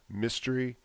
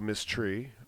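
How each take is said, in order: First: It is said as one word, mystery. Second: It is said as two separate words.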